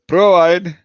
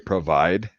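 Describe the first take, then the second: First: It is said the Indian way. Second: It is said the American way.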